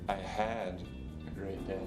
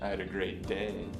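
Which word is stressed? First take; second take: had; day. First: The stress is on the word "had". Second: The stress is on the word "day". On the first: The good day was cut short by something. "The second time, I put the stress on had" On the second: The day was fine but the week was worse. "The last time, I accented day"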